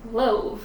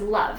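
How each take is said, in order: First: The vowel is a long O sound. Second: The vowel is a short U-like sound. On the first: The speaker calls it wrong. "if this was a normal bossy E, this word would be love. Love, like long O V" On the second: The speaker calls it right. "it's not a long O, it's a short O. So this word is love"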